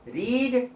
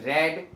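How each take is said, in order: First: The vowel is a long 'ee' sound. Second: The vowel is a short 'eh' sound. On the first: It is the present tense. "रीड माने पढ़ना" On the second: It is the past tense. "रेड माने पढ़ा"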